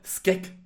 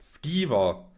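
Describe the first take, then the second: First: The word is clipped to one short syllable. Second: The word is said with two full syllables. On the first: The speaker calls it wrong. "er sagt Skeg" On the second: The speaker calls it right. "jetzt spreche ich es hoffentlich nie wieder falsch aus"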